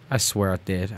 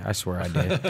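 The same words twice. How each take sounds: First: Said in the usual way. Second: Laughing through the words. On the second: Real, not acted. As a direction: say it while cracking up.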